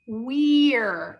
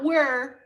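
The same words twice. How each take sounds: First: The vowel is a long E sound. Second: The vowel sounds like the one in were. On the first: The speaker calls it right. "Again, this is long E" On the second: The speaker calls it wrong. "Not we're"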